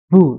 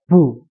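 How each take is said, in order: First: The consonant is released with a heavy puff of breath. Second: The consonant is released plainly without extra breath. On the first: The speaker calls it wrong. "terlalu banyak apa namanya hembusan" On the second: The speaker calls it right. "Jadi biasa saja"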